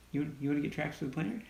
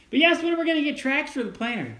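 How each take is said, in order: First: Said in the usual way. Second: Quick, higher voice for the viewer's question; reading out a question. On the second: Retold or imitated. Son reads a viewer's question to his dad, lightly put-on voice. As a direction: read the comment in a lightly put-on voice.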